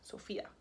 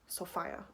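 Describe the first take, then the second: First: The middle syllable does not sound like phi. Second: The middle syllable sounds like phi.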